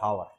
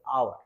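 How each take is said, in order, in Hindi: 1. इस शब्द की शुरुआत में h की आवाज़ बोली जाती है। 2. इस शब्द की शुरुआत स्वर से होती है, h से नहीं। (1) "हावर पढ़ देते हैं" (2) "एच यहाँ पे साइलेंट होता है"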